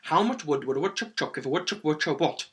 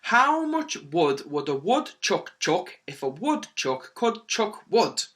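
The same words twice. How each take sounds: First: Rattled off quickly; quick tongue twister. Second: Slow, deliberate, separated words; slow tongue twister. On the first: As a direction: race through the tongue twister, slipping slightly. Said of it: "start to get really quick at it". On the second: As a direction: say the tongue twister slowly and carefully. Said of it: "I'll say it slowly". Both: Shown as a demonstration.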